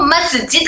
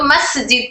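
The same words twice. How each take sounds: First: "मस्जिद" as "maz-jid", voiced z; common mispronunciation. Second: "मस्जिद" with voiceless s; correct airy seen. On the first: Teacher quotes people's mistake, "मस्जिद" with z for s. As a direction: let the s in "मस्जिद" buzz. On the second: Shown as a demonstration. Teacher names the right form, "मस्जिद" with airy s. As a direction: hiss the s in "मस्जिद". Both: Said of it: "तो मस्जिद को मस्जिद कहते हैं".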